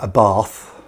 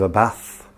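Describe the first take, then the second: First: Bath has a long southern English vowel. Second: Bath has a short northern English vowel.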